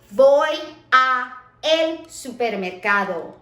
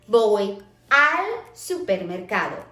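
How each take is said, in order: First: 'A' and 'el' are said as two separate words. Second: 'A' and 'el' are merged into one syllable. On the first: The speaker calls it wrong. "That doesn't sound right" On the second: The speaker calls it right. "instead we say voy al supermercado"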